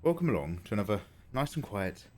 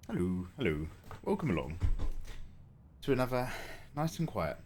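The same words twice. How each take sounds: First: Said in the usual way. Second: Winded from the stairs; breathless, catching breath. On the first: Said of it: "just catching my breath". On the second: Real, not acted. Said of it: "just catching my breath going up and down the stairs".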